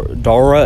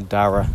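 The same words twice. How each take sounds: First: Dara said as "DOR-uh"; mispronounced name. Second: Dara said with an open "ah" in the first syllable; correct name pronunciation. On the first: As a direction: say Dara with a rounded "or" vowel. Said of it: "is not how you pronounce my name". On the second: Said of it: "It's actually Dara". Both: Shown as a demonstration.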